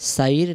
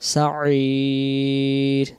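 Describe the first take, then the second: First: The vowel before the final r is short. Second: The vowel before the final r is drawn out long. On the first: The speaker calls it wrong. "সাইর না" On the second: The speaker calls it right. "তিন আলিফ টান দিতেই হবে"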